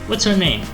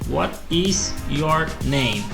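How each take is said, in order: First: The phrase is said quickly and smoothly. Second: The phrase is said slowly, word by word. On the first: "com o tempo vai aumentando a velocidade" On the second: "fala devagar"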